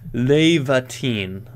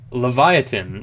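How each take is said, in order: First: The name is said as Lev-a-teen. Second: The name is said like the word leviathan. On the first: The speaker calls it right. "I was pronouncing that way wrong" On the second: The speaker calls it wrong. "I hope I'm pronouncing that right"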